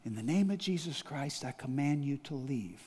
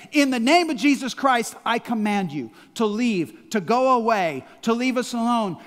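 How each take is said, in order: First: Quiet, hushed command; said quietly. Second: Loud, forceful rebuke; firm command. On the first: Retold or imitated. Pastor at night, not waking his wife, quiet command. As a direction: command it softly so the wife keeps sleeping. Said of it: "I said it quietly". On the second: Shown as a demonstration. Believer rebuking darkness, loud command. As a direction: drive it away with authority. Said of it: "the authority to say".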